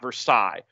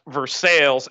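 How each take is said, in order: First: The word gets the non-Kentucky pronunciation. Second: The word gets the local Kentucky pronunciation. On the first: This is the version Kentuckians reject. The speaker calls it right. "and not Versailles" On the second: This is how people from Kentucky say it. The speaker calls it wrong. "a group of people who think that the word is pronounced Versailles"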